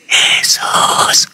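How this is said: The name is whispered very softly. A quiet call surely cannot be heard. "Apalagi kau cuma bisik-bisik"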